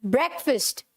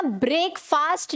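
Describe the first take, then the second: First: ब्रेकफास्ट said "BREK-fust"; short vowels in both halves of ब्रेकफास्ट; correct pronunciation. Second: ब्रेकफास्ट said "brake-faast"; long vowels in both halves of ब्रेकफास्ट; wrong pronunciation. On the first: Teacher modelling for students, ब्रेकफास्ट as "BREK-fust". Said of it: "क्या बोलेंगे?". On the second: Teacher showing students the error, ब्रेकफास्ट mispronounced as "brake-faast". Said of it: "तो हमें क्या नहीं बोलना?". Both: Shown as a demonstration.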